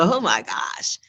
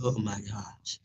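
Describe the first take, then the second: First: It is said with excited, positive energy. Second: It is said with fearful, anxious energy. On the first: Something great might happen. The speaker calls it right. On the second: Something bad might happen. The speaker calls it wrong.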